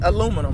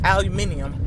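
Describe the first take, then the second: First: The word is said as aluminum. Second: The word is said as aluminium. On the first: This is how the speaker's own group says it. "We pronounce it aluminum" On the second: This is how the other group says it. "they pronounce aluminum aluminium"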